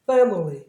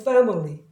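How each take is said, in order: Both takes have the same delivery.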